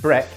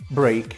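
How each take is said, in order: First: The vowel is short, like in 'bed'. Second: The vowel is long, like in 'bake'. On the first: The speaker calls it wrong. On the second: The speaker calls it right.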